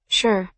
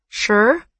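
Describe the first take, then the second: First: Said in the usual way. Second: "Sure?" with a rising, doubting tune; questioning SURE. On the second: A narrator's reading. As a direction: echo "Sure?" as a question, pitch climbing at the end. He questions her answer.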